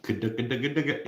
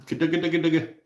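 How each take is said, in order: First: Said in the usual way. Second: Sing-song nickname. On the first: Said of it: "Yeah, I like that". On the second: Pretend. Trying out a silly nickname.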